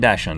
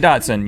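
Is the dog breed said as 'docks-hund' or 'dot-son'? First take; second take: docks-hund; dot-son. First: The word is said as 'docks-hund'. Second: The word is said as 'dot-son'. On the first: The speaker calls it wrong. "you don't say Dachshund" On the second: The speaker calls it right. "you say Dotson"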